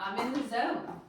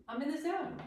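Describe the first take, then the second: First: Said in the usual way. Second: Higher, softer, rising sing-song. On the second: Shown as a demonstration. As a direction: lilt it up playfully.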